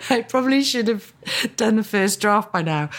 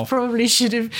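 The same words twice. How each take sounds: First: Mock guilty, higher and louder. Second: Said in the usual way. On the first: Shown as a demonstration. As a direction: play up fake guilt. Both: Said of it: "I'm jesting".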